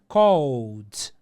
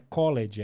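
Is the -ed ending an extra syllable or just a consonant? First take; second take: consonant only; extra syllable. First: The ending is only a short consonant sound. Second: The ending is pronounced as an extra syllable. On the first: The speaker calls it right. "é called. Põe um D" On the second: The speaker calls it wrong. "não é college"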